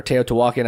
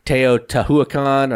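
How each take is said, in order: First: Teotihuacan as tay-oh-tuh-WAH-kin; alternative pronunciation. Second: Teotihuacan as tay-oh-tuh-hoo-uh-KAHN, slowly; alternative pronunciation. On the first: Host giving the other version of the name, Teotihuacan said tay-oh-tuh-WAH-kin. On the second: Host recapping number two, Teotihuacan said slowly as tay-oh-tuh-hoo-uh-KAHN. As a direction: spell out every syllable of Teotihuacan, ending "kahn". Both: Shown as a demonstration. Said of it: "however you wanna say it".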